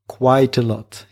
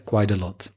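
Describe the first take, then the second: First: It is pronounced in a less American way. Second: It is pronounced in a more American way. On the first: "Three words, but they become one" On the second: "That's more American"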